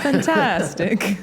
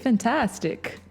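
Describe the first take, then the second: First: It is said in a put-on Russian accent. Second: It is said in her normal accent.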